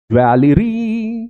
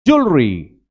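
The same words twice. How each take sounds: First: ज्वेलरी high and slow, every syllable sounded; American full pronunciation. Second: ज्वेलरी squeezed into "jool-ree"; British reduced pronunciation. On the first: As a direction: stretch out every letter of ज्वेलरी. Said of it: "सबके उच्चारण करेगा". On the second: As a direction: drop the middle vowel of ज्वेलरी. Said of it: "अब बेटे सुनो". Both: Shown as a demonstration.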